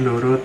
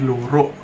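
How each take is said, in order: First: The word ends in an open vowel. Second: The word ends with a final k sound. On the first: This is the standard Javanese form. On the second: This is the Banyuwangi dialect form.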